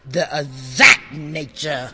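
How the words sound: The phrase is said with lively enthusiasm. The speaker calls it right. "put some enthusiasm on it"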